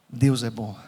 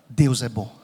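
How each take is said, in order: No difference in how they are said.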